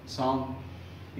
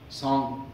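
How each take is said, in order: First: सॉन्ग stretched very slowly, soft, ending on a long ng; slow, soft सॉन्ग with a lingering ng; drawn-out demo word. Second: Said in the usual way. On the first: Shown as a demonstration. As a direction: draw out सॉन्ग to show the final ng. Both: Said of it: "आखिर में जो आवाज़ आ रही है एन जी".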